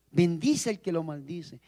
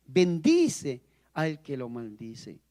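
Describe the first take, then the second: First: Said in the usual way. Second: Slow solemn repeat. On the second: Shown as a demonstration.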